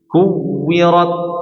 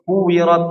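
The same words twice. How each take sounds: First: The doubled w is held and pressed firmly. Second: The doubled w is said lightly, not held. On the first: The speaker calls it right. "Dihentakin, ditekan, ditekan ya, ditekan" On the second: The speaker calls it wrong. "jangan kuwirat"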